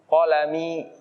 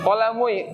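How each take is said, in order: First: The word ends with a plain 'i' sound. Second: The word ends with a 'ui' sound. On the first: The speaker calls it right. "kan enak" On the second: The speaker calls it wrong.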